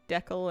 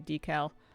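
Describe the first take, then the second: First: The word has a Canadian pronunciation. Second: The word has an American pronunciation. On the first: This is how Canadians say it. "In Canada, we say" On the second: This is how Americans say it. "and Americans say"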